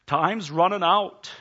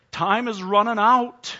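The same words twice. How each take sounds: First: Louder, slow, pressing; urgent warning. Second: Higher, louder and slow, peaking on "out"; urgent preaching shout. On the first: Preacher warning the congregation, slow and louder. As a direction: lean into "time's running out" slowly and louder. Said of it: "preacher building urgency". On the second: Preacher's repeated warning to the congregation, shouted slowly. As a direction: stretch "Time is running out" out, loud and rising. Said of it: "preacher repeats louder". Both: Acted.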